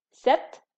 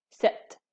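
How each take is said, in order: First: Cette said firmly and loudly as one syllable, "sèt"; loud demo of cette. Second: Cette whispered as one breathy syllable, "sèt"; whispered demo. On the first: Teacher to class, demonstrating pronunciation, loud and firm. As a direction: call out Cette clearly to the class. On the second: Teacher repeats the word for students, whispered. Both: Shown as a demonstration. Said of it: "la prononciation est similaire".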